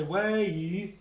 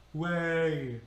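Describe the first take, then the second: First: "way" split into eh and a full ee; "way" with the final ee as its own long syllable; two syllables. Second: "way" as one syllable, lingering on the eh; "way" with a long eh gliding late into a short ee; one-syllable diphthong. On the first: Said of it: "two syllables". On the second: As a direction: draw out "way", tucking the ee in at the end. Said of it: "we linger on the first syllable". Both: Shown as a demonstration.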